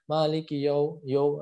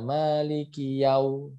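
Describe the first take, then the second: First: The syllable has a plain o vowel. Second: The syllable has an a gliding into u. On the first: The speaker calls it wrong. "Ada yang masih mengucapkan huruf yo" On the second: The speaker calls it right. "Jadi bacanya Maliki yau"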